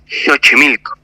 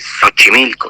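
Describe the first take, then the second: First: The first x is said as 'sh'. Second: The first x is not said as 'sh'. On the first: This is the pronunciation in the original language. The speaker calls it right. "se dice Xochimilco en lengua náhuatl" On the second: This is how it is read from the spelling. The speaker calls it wrong. "no se dice Xochimilco"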